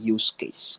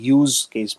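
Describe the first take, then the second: First: 'Use' is pronounced like the noun. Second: 'Use' is pronounced like the verb. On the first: The speaker calls it right. "আমরা বলে থাকি ইউজ case. So it should be pronounced as a noun" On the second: The speaker calls it wrong. "ইউজ বলতে verb বোঝানো হয়, so আমরা এখানে কিন্তু ইউজ case বলি না"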